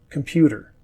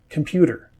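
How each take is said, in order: Both takes have the same delivery.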